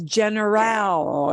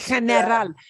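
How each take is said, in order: First: It is said with an English pronunciation. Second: It is said with a Spanish pronunciation. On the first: The speaker calls it wrong. "Your English brain will really want to pronounce that as general" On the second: The speaker calls it right. "Sí, general"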